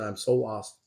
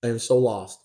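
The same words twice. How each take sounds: First: Softer, hushed tearful quote; quiet, a touch of tears. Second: Said in the usual way. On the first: Retold or imitated. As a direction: echo a lost girl's tearful plea. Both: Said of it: "She had tears on her eyes".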